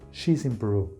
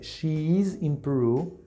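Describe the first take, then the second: First: Pronoun and verb are merged into one word. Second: Pronoun and verb are said as separate words. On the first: "I'm gonna pronounce it this way" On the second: "Instead of saying uh"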